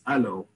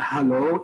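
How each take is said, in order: First: The word begins with a vowel, no h. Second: The word begins with an h sound. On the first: "it's allo. It's just easier to say for a native Hebrew speaker" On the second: "it's not hello"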